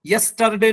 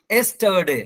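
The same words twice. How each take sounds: First: "यस्टरडे" beginning "yas-", R sounded; wrong Y start. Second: "एस्टरडे" said "es-tuh-day"; no initial Y. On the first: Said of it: "यस्टरडे नहीं होगा". ("यस्टरडे" की शुरुआत य से) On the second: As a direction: begin "एस्टरडे" straight on E. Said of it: "यस्टरडे wrong है". ("एस्टरडे" की शुरुआत ए से) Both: Shown as a demonstration.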